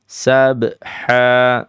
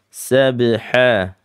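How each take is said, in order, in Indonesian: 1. Huruf b mendapat gema kuat dengan tambahan hentakan. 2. Huruf b hanya mendapat gema ringan dan pendek. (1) "jangan ya" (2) "biasanya sabha"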